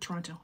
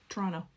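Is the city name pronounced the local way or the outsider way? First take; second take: outsider; local. First: The name is pronounced the way outsiders say it. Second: The name is pronounced the way locals say it.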